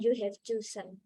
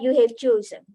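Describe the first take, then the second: First: The phrase is said flat, without any stress. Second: The first syllable of 'chosen' rises and is stressed. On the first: The speaker calls it wrong. "Itu kan lempeng gitu ya" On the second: The speaker calls it right. "chosen itu yang naik yang depan"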